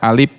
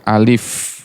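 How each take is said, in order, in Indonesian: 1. Alif diucapkan dengan lafal gaya Sunda. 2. Alif diucapkan dengan lafal Arab standar. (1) "Kalau orang Sunda suka baca alif ya" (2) "padahal dia harus alif"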